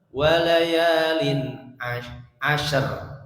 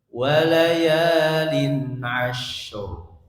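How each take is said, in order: First: The last word ends with an 'ar' sound. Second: The last word ends with an 'ur' sound. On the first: The speaker calls it wrong. "jangan walayalin ashar" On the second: The speaker calls it right. "tidak ashar tapi ashur"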